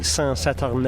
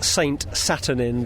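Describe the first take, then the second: First: The name is said with a French accent. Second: The name is said with an English accent. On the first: "but that'll be Saint-Saturnin" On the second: "if you were pronouncing it completely without any French accent"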